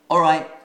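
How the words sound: It is said in a British accent. "That's how we speak in England"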